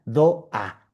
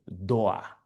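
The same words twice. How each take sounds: First: "Doa" split into two syllables, do, a; katakana reading of "Doa". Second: "Doa" said low, as one English word; British pronunciation of "Doa". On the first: Shown as a demonstration. Teacher showing katakana spelling, "Doa" in separate syllables do and a. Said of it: "lo pusieron en katakana". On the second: Retold or imitated. Teacher quoting a Briton naming the door, "Doa" as English door. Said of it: "el británico les dice".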